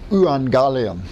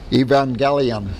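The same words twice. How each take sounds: First: The word begins with a combined eu sound. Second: The word begins with a plain e vowel. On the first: "I take that EU at the beginning ... together, and I pronounce it like this" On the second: "a lot of people pronounce this Greek word evangelion"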